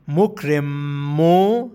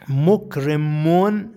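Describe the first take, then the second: First: The word ends on a vowel, no n. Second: The word ends with a final n sound. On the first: "ضمه بدون تنوین باشه" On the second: "ضمه با تنوین باشه"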